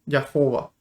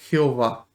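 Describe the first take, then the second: First: The name is pronounced the German way. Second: The name is pronounced the Spanish way. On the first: "en alemán se pronuncia Jehová" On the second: "al traducir al español sería Jehová"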